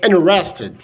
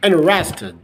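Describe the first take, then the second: The two takes are said the same way.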